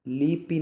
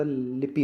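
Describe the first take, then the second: First: लिपि with long vowels, "lee-pee"; wrong pronunciation. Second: लिपि with a short first i, "li-pi"; correct pronunciation. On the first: Teacher shows the mistake, लिपि drawn out as "lee-pee". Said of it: "नहीं होता". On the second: Teacher gives the right form, लिपि as short "li-pi". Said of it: "होता है". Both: Shown as a demonstration.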